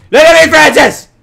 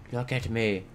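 First: Very loud, high yell; demanding shout. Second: Soft, controlled order; quiet command. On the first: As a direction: yell for the cow's full attention. Demands the cow's attention. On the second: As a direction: drop to a hushed, stern demand. Drops to stern quiet order. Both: Pretend.

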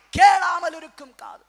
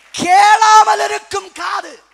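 First: Raised voice, falling away at the end; emphatic repeat. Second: Very loud, high, drawn-out shout; thundering proclamation. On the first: Preacher restating the heading to congregation, loud then easing. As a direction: start loud, then ease down. Second, less forceful take of heading. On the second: Preacher proclaiming the heading to congregation, full slow shout. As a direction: stretch கேளாமல் into a huge cry. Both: Real, not acted.

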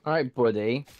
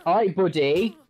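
First: Said in the usual way. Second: Louder, rising taunt at the boss. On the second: Shown as a demonstration. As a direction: push it out as a cocky challenge.

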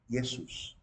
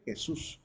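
First: "Jesús" with a Y sound, Yesús; Greek and Latin pronunciation. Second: Said in the usual way. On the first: Shown as a demonstration. Teacher setting it against the Spanish name, Greek pronunciation. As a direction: swap the J of "Jesús" for a Y. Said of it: "igual como lo pronuncia la lengua griega".

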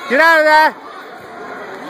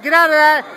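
First: Slow, stretched-out call; drawn out. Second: Said in the usual way. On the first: Real, not acted. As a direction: drag the words out slowly. Coach calling to fighter.

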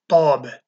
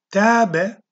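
First: "tâbe" with a heavy emphatic t and dark a; thick t. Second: "Tâbe" with a light, thin plain t. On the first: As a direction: say "tâbe" with a thick, pressed t, tongue drawn back. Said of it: "T kalın harftir". (kalın t ile "tâbe") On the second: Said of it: "T ince harftir". (ince t ile "Tâbe") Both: Shown as a demonstration.

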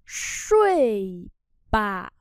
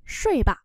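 First: Long falling syllable, pause, particle; slow model reading. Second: Said in the usual way. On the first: Shown as a demonstration. Teacher modelling "go to sleep" for learners, drawn out. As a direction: stretch both syllables apart.

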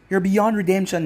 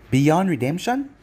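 First: "beyond redemption" higher, falling at the end; firm verdict. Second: "Beyond redemption" with a rising end; questioning echo. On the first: Sakura condemning Naruto, firm falling statement. Condemnation, then echoed as question. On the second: Naruto echoing Sakura's accusation, questioning. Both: A narrator's reading.

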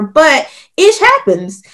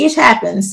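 First: "ish happens" slowed down, "ish" hit high and falling; stressed slowly. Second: Said in the usual way. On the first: Shown as a demonstration. Guest driving home a point to the host, with "ish" slowed and stressed. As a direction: lean hard on "ish" and stretch "ish happens" out.

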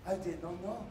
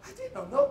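First: Said in the usual way. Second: Much higher, mock-innocent; comic falsetto protest of ignorance; high squeaky repeat. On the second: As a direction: squeak it out like a naive boy. Repeated line, high second take.

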